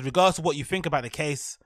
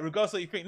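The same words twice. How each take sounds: First: Said in the usual way. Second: Soft, mocking repeat of their phrase; mocking quote. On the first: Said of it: "it says". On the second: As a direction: echo their words with scorn. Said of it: "I love how they're saying that".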